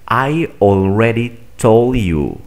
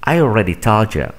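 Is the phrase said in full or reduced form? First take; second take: full; reduced. First: Every word is pronounced fully and separately. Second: The words are reduced and run together. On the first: "Primero voy a pronunciar de manera formal" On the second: "Aplicando esta estrategia"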